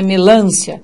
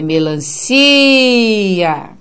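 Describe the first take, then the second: First: The syllable lan is stressed and lengthened. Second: The syllable lan is unstressed and short. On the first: The speaker calls it wrong. "não é o som do lã que se estendeu, porque não é melância" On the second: The speaker calls it right. "é melancia"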